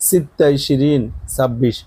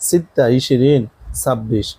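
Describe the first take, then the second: The two takes are said the same way.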